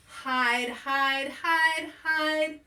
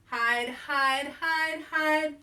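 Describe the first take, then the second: No difference in how they are said.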